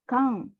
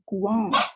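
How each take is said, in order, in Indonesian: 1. Kata ini diawali dengan bunyi k biasa. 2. Kata ini diawali dengan bunyi geluncur kw. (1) "kang, ya" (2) "bukan kuang"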